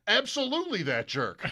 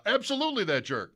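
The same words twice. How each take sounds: First: Higher, laughing piled-on "jerk"; laughing agreement. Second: Higher, British-tinged "Absolutely that jerk"; a hint of Ben Wright's voice; imitating Ben Wright. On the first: Retold or imitated. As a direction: join in the joke with a laugh. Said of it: "his response was". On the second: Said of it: "used Ben Wright's voice".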